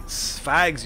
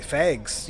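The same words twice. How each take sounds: First: "Fags" with an open a as in cat; fags pronunciation. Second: "Fags" said like "fegs"; fegs pronunciation. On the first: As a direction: say "Fags" with a wide, open vowel. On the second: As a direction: close the vowel of "Fags" to an e. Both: Shown as a demonstration. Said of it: "you mean?".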